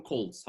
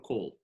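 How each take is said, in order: First: Calls, ending in an audible S; with final S. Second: Call, with no S at the end; without final S. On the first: Teacher showing plural-subject verb form, calls with final S. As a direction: pronounce calls with the S on the end. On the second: Teacher removing the S for learners, call without S. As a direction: drop the S and say just call. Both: Shown as a demonstration. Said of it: "يبقى هشيل اس".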